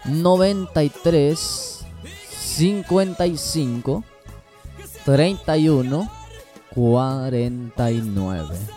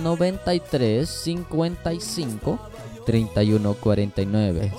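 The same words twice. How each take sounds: First: The number is said at a slower pace. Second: The number is said at a faster pace.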